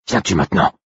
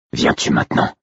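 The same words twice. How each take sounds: First: Higher, rough-edged insistent question; insistent wolf. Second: Low, rasping whispered call; wolf companion. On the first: Wolf pressing his brother to come, insistent. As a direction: press him for an answer, roughly. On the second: Wolf calling his brother in thought, rasping whisper. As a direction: rasp the question almost without voice. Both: A narrator's reading. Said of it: "Mon propre loup qui m'appelait ainsi".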